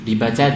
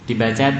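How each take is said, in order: No difference in how they are said.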